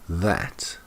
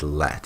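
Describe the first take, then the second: First: The word begins with a TH sound. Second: The word begins with an L-like sound. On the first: The speaker calls it right. "it's that" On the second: The speaker calls it wrong. "It's not let"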